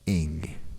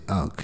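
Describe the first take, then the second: First: The word is said like 'ing'. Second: The word is said like 'unk'. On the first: This is how the Egyptians said it. The speaker calls it right. "is actually pronounced ing" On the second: This is how Afro Americans usually say it. The speaker calls it wrong. "we like to pronounce it unk"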